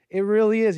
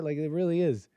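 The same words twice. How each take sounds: First: "really" hit higher and louder, falling at the end; emphatic repeat. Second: Said in the usual way. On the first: Real, not acted. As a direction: repeat it, punching "really" loud and high.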